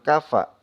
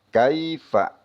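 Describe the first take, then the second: First: The first syllable has a plain 'a' vowel. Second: The first syllable has an 'ai' diphthong. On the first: The speaker calls it wrong. "jangan kafa" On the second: The speaker calls it right. "Kita baca kai"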